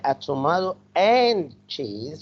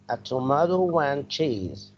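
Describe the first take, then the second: First: No w sound links tomato to and. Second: A w sound links tomato to and. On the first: The speaker calls it wrong. "We don't say" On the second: The speaker calls it right. "We need to add W sound"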